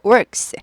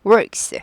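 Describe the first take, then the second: First: The vowel is said with a curled r. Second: The same.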